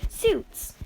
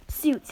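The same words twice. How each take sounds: First: "Suits!" jumps much higher with a falling finish; All Might finally announces the suits, high and emphatic; announcing shout. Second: Said in the usual way. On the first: Retold or imitated. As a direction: fling out "Suits!" like a big reveal.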